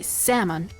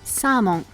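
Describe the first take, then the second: First: It is said with English pronunciation. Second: It is said with Japanese pronunciation. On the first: The speaker calls it wrong. "don't say salmon" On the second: The speaker calls it right. "just say salmon"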